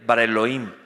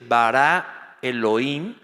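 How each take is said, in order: First: Bara Elohim said in one breath as one word; right way, Bara Elohim joined in one breath; run together. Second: Bara and Elohim with a breath between them; Bara, then a pause, then Elohim; wrong way, Bara Elohim broken in two; split with a pause. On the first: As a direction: glide Bara into Elohim without a break. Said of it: "sino que tengo que leer". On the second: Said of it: "No debo decir". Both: Shown as a demonstration.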